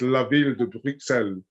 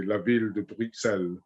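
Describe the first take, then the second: First: La Ville de Bruxelles in a French accent, Bruxelles as brook-SELL. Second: La Ville de Bruxelles in a French accent, with no S at the end. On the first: British gardener shows her French way of saying the rose. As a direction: lean into the French accent on the name. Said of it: "that's where my French accent comes in". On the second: Gardener repeats the French pronunciation for the host. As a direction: say it the French way, unhurried. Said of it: "with my French upbringing". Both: Shown as a demonstration.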